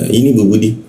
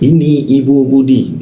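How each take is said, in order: First: It is said quickly, words run together. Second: It is said slowly, each word clearly. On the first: It is ordinary everyday talk. "kalau secara umum kan mungkin uh, cara pelafasannya" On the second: The speaker is teaching the listener. "jelas seperti seorang guru menerangkan pada anak"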